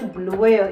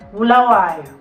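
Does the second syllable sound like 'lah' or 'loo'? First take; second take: loo; lah. First: The second syllable sounds like 'loo'. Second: The second syllable sounds like 'lah'. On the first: The speaker calls it wrong. "It's not Buluwayo" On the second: The speaker calls it right. "it's Bulawayo"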